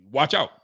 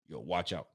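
First: "Watch out" said louder, rising at the end; louder warning. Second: Low, hushed "watch out" under the breath; quiet warning. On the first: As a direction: repeat the warning with more push. Warning repeated louder after quiet take. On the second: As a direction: murmur the warning low, almost to yourself. Quiet warning, then repeated loudly. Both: Real, not acted.

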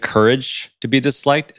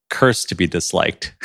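First: Said in the usual way. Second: "courage" squashed into one syllable, "curse"; misheard pronunciation. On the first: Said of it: "when you said". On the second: Shown as a demonstration. Host shows guest how the title was misheard, "courage" slurred to "curse". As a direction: say "curse" where courage is meant. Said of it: "it sounded like".

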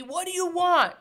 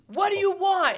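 First: Loud, higher quoted yell; mild reenactment of a movie yell; movie quote. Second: High, loud movie yell; imitating him yelling at her in the rain. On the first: Retold or imitated. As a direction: belt it out like the movie scene. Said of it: "that whole movie". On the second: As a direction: shout it like the lover in the rain. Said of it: "And he's yelling at her".

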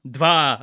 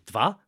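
First: Dva said firmly with a falling tune, a bit louder; confirmed Russian word. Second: Dva asked with a rising, unsure tune; unsure Russian word. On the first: Told he got the Russian right, now firm. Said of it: "Dva, yeah". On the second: Guessing the Russian for two, asking. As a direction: try out Dva as a tentative question. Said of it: "what's the word for two?". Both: Shown as a demonstration.

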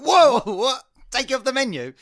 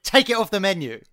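First: High-pitched incredulous question; acted shocked disbelief. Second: Firm, slightly louder demand; retold customer demand. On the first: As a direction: recoil at an outrageous demand, playing it up. Acting out his shocked reply.

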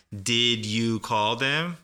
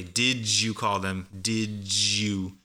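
First: "Did you call them?" with did and you kept apart; careful, unlinked "Did you"; each word separate. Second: "Did you" blended into "didju"; slow demo of "Did you" as "did-joo"; connected native pronunciation. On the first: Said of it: "But usually a native speaker connects all". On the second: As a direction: link the D and Y in "Did you" into a J sound. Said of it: "native speaker connects all of that". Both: Shown as a demonstration.

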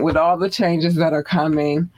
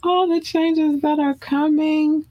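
First: Said in the usual way. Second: Much higher, slower, floating falsetto; drawn-out falsetto. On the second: Acted. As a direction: stretch it out high like a crooner. Repeats phrase in high drawn voice.

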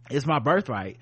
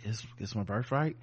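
First: Said in the usual way. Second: Mock meek, quiet claim that rises at the end; without authority. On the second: Host imitating his unconvincing birthright claim to her, without authority. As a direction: imitate a feeble, unconvincing assertion, softer and lower. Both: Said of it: "he says it so without authority".

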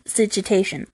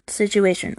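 First: "situation" with an extra t, "sitch-u-TAY-tion"; mispronounced word. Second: Said in the usual way. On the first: Real, not acted. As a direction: slip a t into "situation" before -ation. Garbles word, then corrects it.

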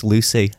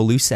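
First: LUCY ending in a clear "ee"; "Lucy" with a tight final vowel. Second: LUCY ending in an "eh"; "Lucy" with an open last vowel. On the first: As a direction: say "Lucy" as "Loo-see". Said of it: "For me, it's Lucy". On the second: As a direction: say "Lucy" as "Loo-seh". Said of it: "Some people go Lucy". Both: Shown as a demonstration.

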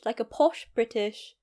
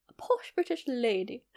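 First: Said in the usual way. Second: Lightly voiced posh British lady, softer; a hint of upper-class British, "A posh British lady" said with a genteel lilt; posh British accent. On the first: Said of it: "quite a very British". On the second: Shown as a demonstration. Vlogger demoing her posh British lady voice reel character, light posh British accent. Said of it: "quite a very British, like a posh British".

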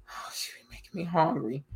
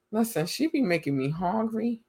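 First: Breathy whispered aside, much softer. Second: Said in the usual way. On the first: Real, not acted. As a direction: whisper it like a craving secret. Repeats line in a whisper.

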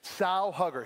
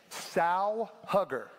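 First: Said in the usual way. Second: Slow, deliberate "Sow hugger"; slow, spelled-out word. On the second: Shown as a demonstration. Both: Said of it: "Sow, like a pig".

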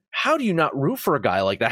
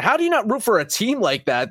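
First: Said in the usual way. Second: Rising passion. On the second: Real, not acted. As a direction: push the second ask higher with real admiration. Repeated rhetorical question, rising passion.

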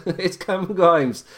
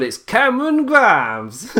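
First: Said in the usual way. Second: High, drawn-out hammed-up name call; put-on announcer-like voice. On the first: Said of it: "I'll stop the voices". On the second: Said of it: "Me saying I'll stop the voices".

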